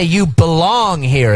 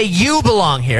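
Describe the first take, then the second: First: Slow, with belong drawn out as the key word; stress on BELONG, slow. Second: YOU hit first and weighted; stress on YOU. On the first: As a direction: stretch out belong, the heart of the phrase. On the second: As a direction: lean on the word You, then let belong here fall. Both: Shown as a demonstration. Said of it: "It's all about how you emphasize".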